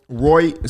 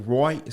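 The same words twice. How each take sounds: First: "Right" as roit, a louder Australian demo. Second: "Right" said as roit, Australian; a light Australian "Right". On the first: Laughing about accents, an Australian "Right". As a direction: punch "Right" like an Aussie. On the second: Speaking of Aussies, a light Australian "Right". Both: Shown as a demonstration. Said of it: "sounds mad Australian".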